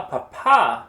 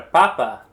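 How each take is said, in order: First: Papa stressed on the end, pa-PA, loud; stress on last syllable. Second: Papa stressed at the start, PA-pa, loud; stress on first syllable. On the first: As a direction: punch the second syllable of papa. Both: Shown as a demonstration. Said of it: "example of why the rules of accentuation".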